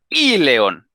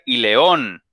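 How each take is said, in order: First: The stress is on the first syllable. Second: The stress is on the last syllable. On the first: The speaker calls it right. "le ponen una vocal al inicio y es con acento" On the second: The speaker calls it wrong. "para que no digan y león"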